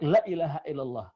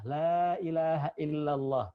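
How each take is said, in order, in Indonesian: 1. Vokal pada kata pertama dibaca pendek. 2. Vokal pada kata pertama dibaca panjang. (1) "dibaca pendek" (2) "La-nya panjang"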